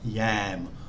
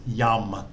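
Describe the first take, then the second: First: The vowel sounds like am. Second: The vowel sounds like um. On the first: The speaker calls it wrong. "not yam" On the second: The speaker calls it right. "And it's yum"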